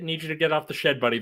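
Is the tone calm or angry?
calm. It is said in a calm, friendly tone.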